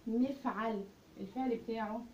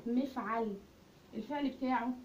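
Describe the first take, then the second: No difference in how they are said.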